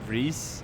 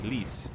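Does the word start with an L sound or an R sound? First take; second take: R sound; L sound. First: The word starts with an R sound. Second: The word starts with an L sound. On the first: This is how Swedish speakers say it. "we say ris" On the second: This is how speakers with a Chinese accent say it. "they say lis. They don't pronounce the R"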